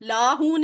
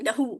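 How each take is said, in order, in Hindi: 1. पहला स्वर लंबा है। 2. पहला स्वर छोटा है। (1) "लाहू नहीं"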